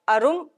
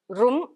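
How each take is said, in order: First: An extra vowel comes before the r sound. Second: The word starts directly with the r sound.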